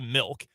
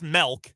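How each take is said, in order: First: The vowel in milk is pronounced clearly. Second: The vowel in milk is reduced or altered. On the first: This is how he says it himself. "I'm just pronouncing the I" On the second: This is how his wife says it. "She says milk"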